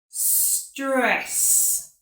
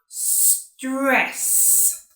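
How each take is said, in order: First: The word starts directly with the s sound. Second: The word starts directly with the s sound.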